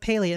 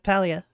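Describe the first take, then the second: First: The first syllable sounds like 'paleo' in paleontology. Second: The first syllable does not sound like 'paleo'. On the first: "the reason why I say Palia is because it reminds me of paleontology" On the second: "instead of Palia"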